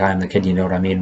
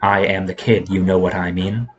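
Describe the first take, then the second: First: The words run together without any pauses. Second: The words are split with a pause between phrases. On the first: It is the name of one artist. The speaker calls it right. "all one word. That is why I pronounced it like" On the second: It is an ordinary sentence. The speaker calls it wrong. "rather than"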